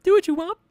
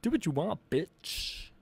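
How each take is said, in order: First: Very high squeaky voice; shrill cartoon pitch; wrong voice. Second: Nerd voice. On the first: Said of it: "Ooh, that was the wrong voice". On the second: Pretend. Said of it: "Too much nerd voice. I was getting too angry".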